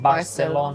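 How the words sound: The c is pronounced as an s sound. This is how Latin America says it. "they changed the C for an S"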